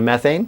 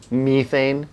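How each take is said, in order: First: The word is said with a non-European pronunciation. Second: The word is said with a European pronunciation. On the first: "instead of methane" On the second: "he's European, so he calls it methane"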